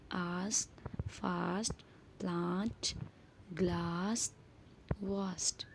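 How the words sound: The words are said in a British accent.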